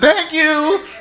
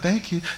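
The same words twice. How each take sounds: First: It is said loudly. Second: It is said very quietly.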